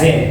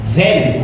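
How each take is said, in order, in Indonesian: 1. Kata ini diawali dengan bunyi z yang berdengung. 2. Kata ini diawali dengan bunyi th yang lembut. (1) "bukan zen" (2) "Then, bukan"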